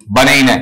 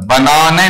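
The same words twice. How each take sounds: First: "बनेना" with an 'ei' glide in the middle; American pronunciation. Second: "बनाना" with a long open 'aa' in the middle; wrong pronunciation. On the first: ("बनेना", बीच में 'एइ' की ध्वनि) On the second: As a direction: show "बनाना" as the version to avoid, broad 'aa'. ("बनाना", बीच में लंबा 'आ') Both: Shown as a demonstration. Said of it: "बनाना नहीं".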